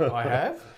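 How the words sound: The voice rises at the end, as a question.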